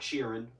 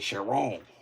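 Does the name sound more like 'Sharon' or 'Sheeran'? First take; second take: Sheeran; Sharon. First: The name is said like the word Sheeran. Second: The name is said like Sharon, French-sounding. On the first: The speaker calls it wrong. "It's not Sheeran" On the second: The speaker calls it right. "Like Sharon, but like really French and stuff"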